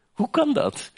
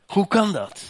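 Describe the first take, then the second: First: Rhetorical cry. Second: "Hoe kan dat?" repeated a little lower; lower echo. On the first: Preacher asks the church "Hoe kan dat?" high and amazed. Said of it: "rhetorical cry". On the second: Preacher repeats "Hoe kan dat?" to the church, less high. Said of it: "echoed lower". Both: Real, not acted.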